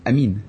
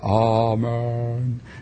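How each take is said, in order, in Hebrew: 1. התנועה הסופית נשמעת כמו 'ee'. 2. התנועה הסופית נשמעת כמו 'eh'. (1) "הם לא אומרים אמן, אומרים אמין" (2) "הם אומרים ככה בכנסייה"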